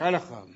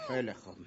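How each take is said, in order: First: Said in the usual way. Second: Softer repeat. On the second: Acted. Softer second take.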